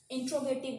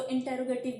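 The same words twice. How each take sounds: First: इंट्रोगेटिव said as in-tro-ge-tiv, with the tro cluster; इंट्रोगेटिव spoken in-tro-ge-tiv, as the teacher models it; correct pronunciation. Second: इंटेरोगेटिव said in-te-ro-ge-tiv, with an extra e inserted; mock the common mistake in इंटेरोगेटिव, in-te-ro-ge-tiv; इंटेरोगेटिव with the inserted vowel, as some people wrongly say it; wrong pronunciation. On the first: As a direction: clear in-tro-ge-tiv for इंट्रोगेटिव, no extra vowel. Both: Shown as a demonstration. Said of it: "that's a wrong pronunciation".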